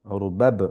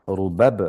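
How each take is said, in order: The two takes are said the same way.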